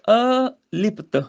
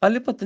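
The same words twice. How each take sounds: First: "ਅਲਿਪਤ" slowly split as a, lipt; prefix separated. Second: "ਅਲਿਪਤ" quick, as one joined word; run together. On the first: Teacher separates the prefix, slow "ਅਲਿਪਤ" as a-lipt. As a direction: hold off the a, then "lipt" in "ਅਲਿਪਤ". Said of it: "ਇਹਦਾ prefix ਹੈ ਇਹ". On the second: Teacher shows the mistake, "ਅਲਿਪਤ" run together. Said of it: "ਅਲਿਪਤ ਨਹੀਂ ਬੋਲਣਾ ਇਹਨੂੰ". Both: Shown as a demonstration.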